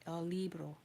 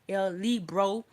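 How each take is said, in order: First: It is said smoothly and naturally, without forcing. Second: It is said in a forced, overly careful way. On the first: The speaker calls it right. "the way you would hear a native speaker saying it" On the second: The speaker calls it wrong. "Don't try to pronounce like el libro like that"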